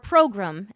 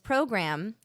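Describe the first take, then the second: First: The word is said in an imitated, unusual pronunciation. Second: The word is said in a plain everyday pronunciation.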